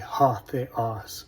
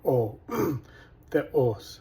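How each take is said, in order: First: The first word starts with an h sound. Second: The first word starts with a bare vowel. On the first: "In Erasmian, we'd say ha theos" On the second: "you don't pronounce the rough breathing sound"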